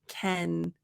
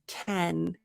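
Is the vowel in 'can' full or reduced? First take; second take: full; full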